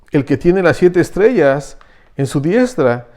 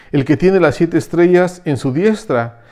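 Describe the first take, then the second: The two takes are said the same way.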